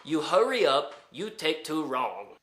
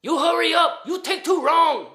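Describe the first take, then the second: First: Lightly voiced repeat, no real shout; milder retold bellboy. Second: Loud, high mock-accent yell; bellboy yelling at the man across the hall to hurry; shouting bellboy. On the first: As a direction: say it again calmly, just quoting him. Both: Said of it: "got told from the bellboy".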